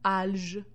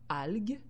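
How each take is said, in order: First: The g is a soft j sound. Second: The g is a hard g sound. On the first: The speaker calls it wrong. "Si je n'avais pas mis le U, j'aurais fait le mot" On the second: The speaker calls it right. "j'ai été obligée d'ajouter la lettre U derrière le G"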